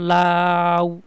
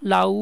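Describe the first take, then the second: First: The a vowel is held long. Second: The u vowel is kept short. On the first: The a is the full vowel of the diphthong. "আর মধ্যে অনেক long time আমি থাকতে পারতেছি" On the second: The u is the half vowel of the diphthong. "এই উটার মধ্যে আমি কখনোই long time থাকতে পারবো না"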